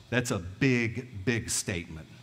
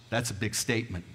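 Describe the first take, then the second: First: "big" leaned on hard, said twice, very slowly; slow way down and lean on "big" both times; "That's a big, big statement" drawn out slowly, weight on each "big"; slow emphatic repeat. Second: Said in the usual way. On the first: Shown as a demonstration.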